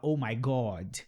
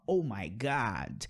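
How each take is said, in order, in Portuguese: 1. A vogal em God é um som 'oh' arredondado. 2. A vogal em God é um som 'ah' aberto. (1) "Ele não vai falar oh my God" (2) "ele vai falar oh my God"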